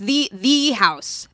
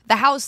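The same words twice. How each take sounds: First: THE drawn out slowly as "thee"; stress on THE. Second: Said in the usual way. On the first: Real, not acted. Podcast host singles out the famous house, slow stress on THE.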